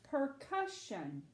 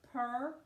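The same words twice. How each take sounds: First: PERCUSSION said slowly as one joined word; blended word. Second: PERCUSSION broken into separate syllables, per, cus, shun; sounding out syllables. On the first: Teacher puts the word together for Abby, PERCUSSION slow and whole. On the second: Teacher sounds out a word for Abby, PERCUSSION syllable by syllable. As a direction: say "percussion" in pieces with clear gaps. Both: Shown as a demonstration. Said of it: "let's try to say the word".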